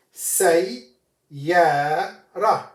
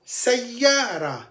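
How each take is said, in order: First: Say, ya, ra, each syllable split off by a pause. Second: Sayyara said as one word with the doubled yy; joined whole word. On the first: Teacher breaking the word into syllables for students. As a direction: break Sayyara into its three parts. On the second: Teacher joining the syllables into the whole word. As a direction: run Sayyara together in one breath. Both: Shown as a demonstration. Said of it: "One more time".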